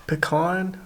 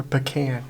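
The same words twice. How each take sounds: First: Pecan said puh-KAHN, AH in the second syllable. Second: Pecan said puh-KAN, short A as in "can". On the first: Camper asking viewers how they say it, pecan as puh-KAHN. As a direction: say pecan to rhyme with "upon". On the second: Camper offering viewers the other option, pecan as puh-KAN. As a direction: end pecan like the word "can". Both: Shown as a demonstration. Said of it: "You say pecan or pecan?".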